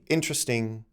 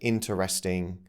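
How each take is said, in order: First: The word is said with a syllable dropped. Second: The word is said with every syllable in full. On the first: "could be" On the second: "A word like interesting"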